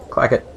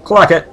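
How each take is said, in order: First: Said in the usual way. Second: Loud, higher mock call. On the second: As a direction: call the name out with gusto. Calls out character's name, then repeats plainly.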